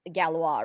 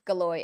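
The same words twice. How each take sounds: First: The name is said with a French pronunciation. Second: The name is said with an American pronunciation. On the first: The speaker calls it right. "Which is the French pronunciation" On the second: The speaker calls it wrong. "I'm just being an American plebe pronouncing it wrong"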